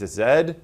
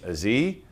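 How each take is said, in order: First: The letter is said as zed, non-US style. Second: The letter is said as zee, American style.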